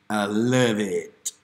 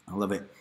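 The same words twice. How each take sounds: First: Slow, savoring I love it; drawn-out loving. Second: Said in the usual way. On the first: Acted. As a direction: stretch it out lovingly.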